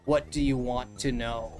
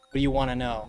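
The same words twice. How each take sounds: First: The phrase is said slowly, word by word. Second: The phrase is said fast and run together. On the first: It sounds like a non-native speaker. The speaker calls it wrong. "you don't say" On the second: It sounds like a native speaker. The speaker calls it right. "you kind of say things like fast"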